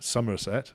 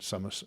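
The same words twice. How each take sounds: First: The S sounds are buzzed like a Z. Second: The S sounds are hissed like a plain S.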